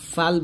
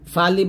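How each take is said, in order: First: The word ends on the 'l' sound. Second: The word ends with an added 'i' vowel. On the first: The speaker calls it right. "ফাল বলবেন" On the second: The speaker calls it wrong. "ফালি বলবেন না"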